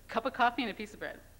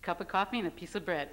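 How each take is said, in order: First: It is said forcefully, with strong emphasis. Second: It is said plainly, without extra force.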